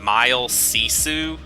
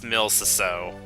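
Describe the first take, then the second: First: The first word sounds like 'mile', ending 'sisu'. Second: The first word sounds like 'mill', ending 'seeso'. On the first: The speaker calls it wrong. "I always pronounced that name Mile Sisu" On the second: The speaker calls it right. "I think it's pronounced Mil Ciseaux"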